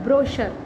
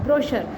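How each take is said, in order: First: The middle consonant is an 'sh' sound. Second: The middle consonant is an 'sh' sound.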